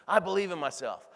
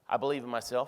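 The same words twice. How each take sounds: First: It is said with strong passion and energy. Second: It is said flatly with no energy. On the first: The speaker calls it right. "You got to read it with passion" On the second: The speaker calls it wrong. "if you read this with no energy"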